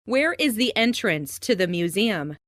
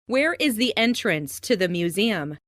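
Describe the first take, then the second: No difference in how they are said.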